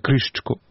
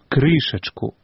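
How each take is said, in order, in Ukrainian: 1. Ненаголошений голосний ковтається і випадає. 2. Кожен ненаголошений голосний вимовляється повністю. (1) "не «крышечку»" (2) "говорим"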